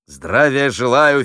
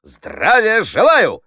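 First: Said in the usual way. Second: High, loud, drawn-out military greeting; slow, full-voiced parade-ground cry; shouted salute. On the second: A narrator's reading. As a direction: shout it like a recruit to a commander. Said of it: "крикнул он".

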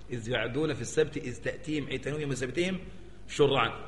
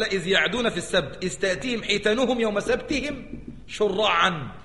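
First: Building recitation. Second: Quran recitation. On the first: Verse recited again, rising. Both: Shown as a demonstration.

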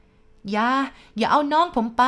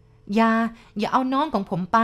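First: High, loud desperate cry; crying at full voice. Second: Higher, raised-voice plea; crying out to stop. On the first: Boy wakes screaming for his brother, top-of-voice cry. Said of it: "ผมร้องขึ้นสุดเสียง". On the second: Dreaming boy begs the man to leave his brother, crying out. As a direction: cry out and forbid him. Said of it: "ในฝันนั้นผมร้องห้ามเขา". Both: A narrator's reading.

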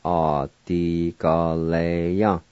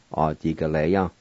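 First: "Adigaleya" slowly, each syllable drawn out. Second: Said in the usual way. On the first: Shown as a demonstration. Teacher pronouncing scatter for learners, slow syllables. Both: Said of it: "now I'll pronounce these words".

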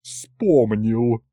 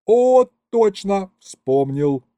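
First: Sour mocking echo in a matron's voice; disgruntled, put-on grumble; grumbling. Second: High, loud burst of sudden recall; light up as it comes back to you; overjoyed exclamation; delighted. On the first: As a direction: throw the word back grumpily. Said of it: "проворчала она". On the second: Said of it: "обрадовался я". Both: A narrator's reading.

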